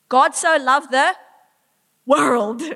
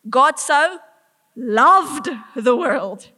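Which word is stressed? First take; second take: world; loved. First: The stress is on 'world'. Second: The stress is on 'loved'. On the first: Everyone and anyone is loved. "Everyone, anyone and everyone made in his image, he loves" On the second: It was real love, not mild liking. "Not mildly kind of enjoy, loves"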